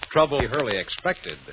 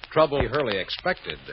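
No difference in how they are said.

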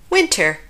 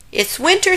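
First: Said in the usual way. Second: Much higher, winter rising; bright rising cry of It's winter; excited announcement. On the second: Acted. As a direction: call out the new season.

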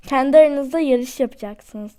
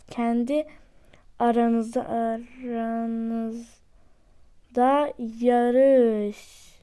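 First: Said in the usual way. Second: Slow drawn-out repeat. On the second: Shown as a demonstration. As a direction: stretch "aranızda" out slowly, word by word. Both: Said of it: "repeats slowly, drawn out".

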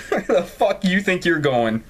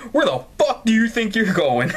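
First: Reading it again through giggles; can't keep it straight, laugh through it; laughing repeat of the line. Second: Mock-tough challenge; mock aggressive. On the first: Real, not acted. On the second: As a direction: play the bitchy stepmother line with some bite. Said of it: "[name], you're aggressive".

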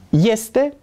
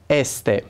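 First: Este said as YES-te, higher; correct iotated form. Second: Este said with a bare E, no glide; wrong plain E. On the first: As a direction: start este with a Y glide. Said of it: "este pasiunea mea". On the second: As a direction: start este with a pure E. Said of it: "Nu pronunțăm este". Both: Shown as a demonstration.

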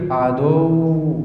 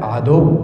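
First: Very slow عدو with the doubled و pulled long; dragged doubled letter. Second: Said in the usual way. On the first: Shown as a demonstration. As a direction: draw out the shadda in عدو as a fault. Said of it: "مثلًا يقول لك إيه؟". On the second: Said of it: "لا، عدو".

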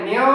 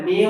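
First: মিউ drawn out separately into the nose; over-nasal mistake. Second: মিউ with its ending held about a second; held light ghunna. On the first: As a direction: overdo the nasal stretch on মিউ. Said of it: "আর নাকে নিতে হবে না". (ভুলভাবে নাকে নিয়ে মিউ টানা) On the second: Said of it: "এক second ধরে রাখবেন". (হালকা গুন্নায় মিউ ধরে রাখা) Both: Shown as a demonstration.

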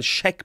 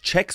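First: "Scheck" mit weichem sch ohne t; SCHECK mit Sch-Anlaut. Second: "Check" englisch mit tsch am Anfang; CHECK mit Tsch-Anlaut. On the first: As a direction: sag "Scheck" mit S C H vorne. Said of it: "Scheck mit S C H". ("Scheck", deutscher Anlaut sch) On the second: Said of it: "es ist nicht Check". ("Check", Anlaut tsch) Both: Shown as a demonstration.

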